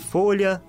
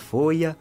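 First: The middle consonant is a palatal lh sound. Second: The middle consonant becomes an i glide.

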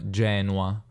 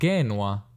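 First: It is said in Italian-style ecclesiastical pronunciation. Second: It is said in the classical Latin pronunciation. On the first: This is the later church pronunciation. The speaker calls it wrong. "non Genua" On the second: This is how it was said in ancient Latin. The speaker calls it right.

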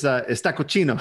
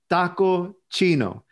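First: The name is said quickly, run together. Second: The name is said at a normal pace. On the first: It sounds like a word meaning dirty. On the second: It means Chinese taco.

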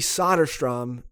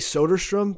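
First: Both O's share the same vowel sound. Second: The first O sounds like the O in soda. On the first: "the O's have the same vowel sound then throughout his name" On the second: "I want to say Soderstrom because it sounds like SodaStream"

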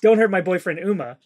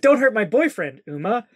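First: The final name runs on without a pause. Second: There is a pause before the final name. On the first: The boyfriend is being named Uma. "but it sounded like" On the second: Uma is being addressed directly. "it was more like"

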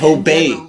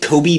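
First: The last vowel sounds like 'ay'. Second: The last vowel sounds like 'ee'. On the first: The speaker calls it right. "No, you eat Kobe beef" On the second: The speaker calls it wrong. "do you eat Kobe beef?"

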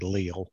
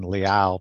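First: The name ends with an L sound. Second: The name ends with an open OW sound. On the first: The speaker calls it wrong. "they say Leal" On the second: The speaker calls it right. "instead of saying Liao"

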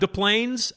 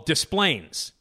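First: The S at the end of Des is silent. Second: The S at the end of Des is pronounced. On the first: "why it's not Des Plaines" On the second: "We pronounce the S"

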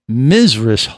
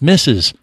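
First: It begins with a buzzing 'Miz' sound. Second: It begins with a hissing 'Miss' sound. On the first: This is how it is said in the mountains of Virginia. The speaker calls it wrong. "It's not Mizres Holt" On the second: This is how most of the country says it. The speaker calls it right. "It's Mrs"

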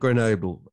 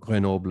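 First: It is pronounced the English way. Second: It is pronounced the French way.

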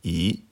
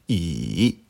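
First: The pitch rises from middle to high. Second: The pitch dips low, then rises. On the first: "Deuxième ton" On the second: "Troisième ton"

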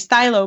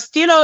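First: The word is pronounced with an English vowel. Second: The word is pronounced with a French vowel. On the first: The speaker calls it right. "So I'm supposed to say stylo" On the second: The speaker calls it wrong. "stilo is a French word for pen"

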